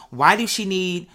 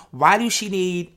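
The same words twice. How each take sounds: The two takes are said the same way.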